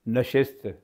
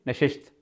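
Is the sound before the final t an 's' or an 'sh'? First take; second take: s; sh. First: It has an sh sound, then s before t. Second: Both hissing sounds are sh, including before t. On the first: The speaker calls it right. "शीन भी आ गया, सीन भी आ गया" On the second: The speaker calls it wrong. "सीन और शीन दोनों को शीन कर दिया"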